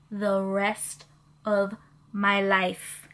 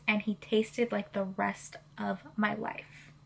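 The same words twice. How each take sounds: First: Slow emotional repeat. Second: Said in the usual way. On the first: Real, not acted. Repeats quote, moved.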